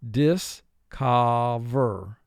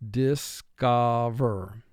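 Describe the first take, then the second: The two takes are said the same way.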